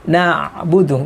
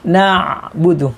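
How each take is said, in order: First: The middle sound flows smoothly into the next. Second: The same.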